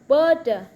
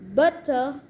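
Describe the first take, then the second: First: The middle consonant is a soft D sound. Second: The middle consonant is a clear T sound.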